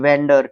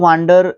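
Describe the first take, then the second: First: The first vowel sounds like 'eh'. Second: The first vowel sounds like 'ah'. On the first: The speaker calls it right. "वेंडर पढ़ोगे" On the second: The speaker calls it wrong. "वांडर नहीं पढ़ोगे आप"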